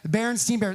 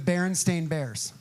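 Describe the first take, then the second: First: The name's last syllable sounds like 'stein'. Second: The name's last syllable sounds like 'stain'. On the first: This is how the speaker remembers the name. "pronounce it as Berenstein because it's like Frankenstein" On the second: This is how the books are actually named. "that's not what I remember"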